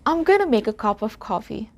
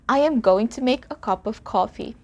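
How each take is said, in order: First: The words are contracted and reduced together. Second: Every word is said fully and separately. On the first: "becomes I'm gonna" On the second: "I am going to"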